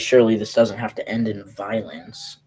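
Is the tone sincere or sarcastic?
sincere. It is said in a sincere tone.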